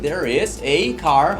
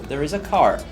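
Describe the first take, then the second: First: The word 'a' is said slowly in full form. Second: The word 'a' is said quickly in reduced form. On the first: The speaker calls it wrong. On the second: The speaker calls it right.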